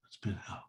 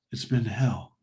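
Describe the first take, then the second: First: Whispered, drained repeat of the same words. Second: Said in the usual way. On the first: Retold or imitated. Relieved dad to neighbor, whispering weakly. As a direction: breathe it out like an exhausted father. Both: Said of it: "He goes".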